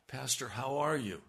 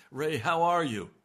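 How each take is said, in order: First: Said in the usual way. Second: Wife's greeting. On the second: Retold or imitated. Wife asking after him.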